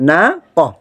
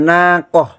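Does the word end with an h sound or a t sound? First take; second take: h sound; h sound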